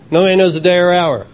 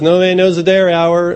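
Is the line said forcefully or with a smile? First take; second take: forcefully; with a smile. First: It is said in a forceful, insistent tone. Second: It is said lightly, with a smiling tone. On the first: The speaker is firmly refusing to listen. "They probably aren't that forceful" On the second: The speaker is casually brushing the matter off. "They might say it with a smile"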